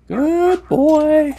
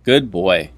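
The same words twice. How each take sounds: First: Much higher, drawn-out sing-song praise; dog praise voice. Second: Said in the usual way. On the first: Pretend. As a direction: gush over the dog like a proud owner.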